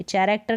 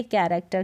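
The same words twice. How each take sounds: First: "चैरेक्टर" starting with ch, as in chair; wrong ch pronunciation. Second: "कैरेक्टर" starting with a hard k; correct k pronunciation. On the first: Teacher shows how not to say character, wrong ch pronunciation. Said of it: "नहीं बोलते". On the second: Teacher models character for learners, correct k pronunciation. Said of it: "इसको बोलेंगे". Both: Shown as a demonstration.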